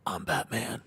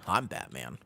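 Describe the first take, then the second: First: Second, softer take on a superhero voice; Batman. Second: Low, soft superhero growl attempt; Batman. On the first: Acted. Streamer retrying his superhero impression for chat, put-on voice. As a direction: put on the masked hero voice, softly. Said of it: "did I do it better now? Was that better?". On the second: Streamer imitating the superhero for chat, low and quiet. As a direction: drop it low like a masked vigilante. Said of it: "did I do it better now".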